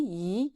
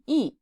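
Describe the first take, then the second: First: The pitch rises from middle to high. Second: The pitch falls sharply from high. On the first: "second tone" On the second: "and fourth tone"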